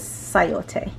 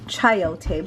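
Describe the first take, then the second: First: The word begins with an 's' sound. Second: The word begins with a 'ch' sound. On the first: This is how the word is actually said. The speaker calls it right. "but it's pronounced as sayote" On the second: This is how the written word looks. The speaker calls it wrong. "if you just look at it, it's like chayote"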